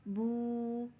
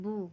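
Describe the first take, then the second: First: The vowel is stretched long. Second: The vowel is short, not stretched. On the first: "एक अलिफ की मिक़दार खींच कर पढ़ते हैं" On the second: "बिल्कुल नर्म लहजे में बग़ैर खींचे पढ़ते हैं"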